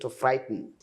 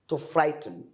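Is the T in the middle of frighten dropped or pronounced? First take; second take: dropped; pronounced. First: The middle T sound is dropped. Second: The middle T sound is clearly pronounced.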